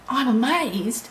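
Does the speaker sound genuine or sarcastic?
genuine. It sounds sincerely impressed and enthusiastic. The speaker truly is impressed. The speaker calls it right. "you can say I'm amazed and be really amazed"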